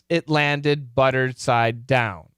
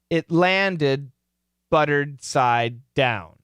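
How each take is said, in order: First: It is read at a faster pace. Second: It is read at a slow pace.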